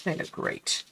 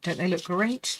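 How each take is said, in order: First: Breathy whisper. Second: Said in the usual way. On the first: Real, not acted. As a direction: whisper it to yourself.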